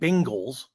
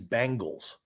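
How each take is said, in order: First: The first vowel is an e sound, as in beg. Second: The first vowel is an a sound, as in bang. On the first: The speaker calls it right. "I'm saying Bengals, like an e sound" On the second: The speaker calls it wrong. "they're saying like the band from the nineties"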